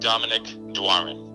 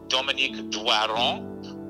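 First: The name is said the English way. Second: The name is said the French way.

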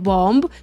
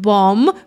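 First: The word ends with an audible b sound. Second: The word ends in m with no b sound. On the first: The speaker calls it wrong. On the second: The speaker calls it right.

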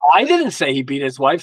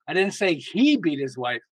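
First: The stress is on "I". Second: The stress is on "say".

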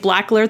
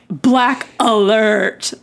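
First: It is said in a plain, neutral tone. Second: It is said in a sarcastic, snide tone.

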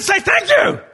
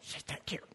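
First: It is said loudly and agitatedly. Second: It is said in a quiet whisper.

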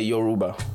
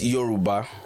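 First: It is said with an American pronunciation. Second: It is said with the native Yoruba pronunciation. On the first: "American would say Yoruba" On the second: "so it's Yoruba"

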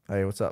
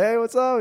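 First: The greeting sounds flat and unenthusiastic. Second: The greeting sounds happy and excited.

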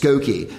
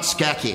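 First: The name is said the standard way, Skokie. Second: The name is said the speaker's own way, Skeki. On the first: The speaker calls it right. "it's Skokie" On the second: The speaker calls it wrong. "It's not Skeki"

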